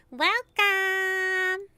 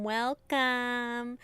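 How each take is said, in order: First: Higher, louder gushing welcome; bright welcome. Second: Said in the usual way. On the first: Shown as a demonstration. Psychic character welcoming the visitor, higher and louder. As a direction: throw it out warmly to the guest. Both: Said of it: "two readings of welcome".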